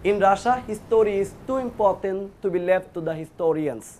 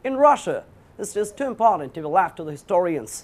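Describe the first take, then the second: First: It is spoken in a Middle Eastern accent. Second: It is spoken in a British accent. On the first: "এটাকে মিডল ইস্টের লোকরা বললে কি বলতো?" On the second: "এটাকে ব্রিটিশরা বললে কি বলতো?"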